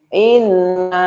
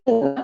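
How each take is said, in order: First: The final vowel is held long. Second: The final vowel is cut short. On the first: It means 'indeed we'. The speaker calls it right. "Makanya bacanya nanti panjang ya" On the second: The part meaning 'we' is left out. The speaker calls it wrong. "Kalau cuman dibaca inna itu artinya yang satu ini yang ketinggalan"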